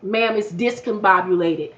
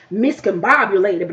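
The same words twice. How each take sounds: First: Says discombobulated, starting with dis; discombobulated with a dis sound at the start, correcting her; correct word. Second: Says miscombobulated, starting with mis; miscombobulated with a mis sound at the start, slowly; wrong word. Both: Retold or imitated. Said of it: "not miscombobulated".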